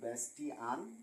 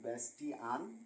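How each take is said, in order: First: The middle is said with a clear 't' sound. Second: The middle is said with a clear 't' sound.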